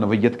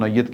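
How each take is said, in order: First: The word is said as 'na-wai-yat', three syllables. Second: The word is said as 'nau-yat', a shorter start. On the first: The speaker calls it wrong. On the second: The speaker calls it right.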